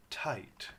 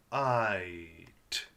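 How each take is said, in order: First: Said in the usual way. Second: "Tight" split as T, long I, T; sounded out. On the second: Shown as a demonstration. Teacher sounding out a quiet G H word, segmented. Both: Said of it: "with that quiet G H".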